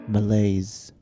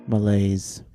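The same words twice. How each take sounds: The two takes are said the same way.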